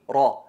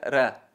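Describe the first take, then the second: First: The r sounds heavy and emphatic. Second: The r sounds light and thin. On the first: "la enfatizada sería ar-Rahman ar-Rahim, ra" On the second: "Y la atenuada sería ra"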